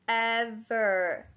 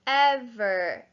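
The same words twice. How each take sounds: First: "ever" drawn out as ev-er; sounded out by syllable. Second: Said in the usual way. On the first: Shown as a demonstration. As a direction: stretch both syllables of "ever" for a spelling class. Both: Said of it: "First syllable".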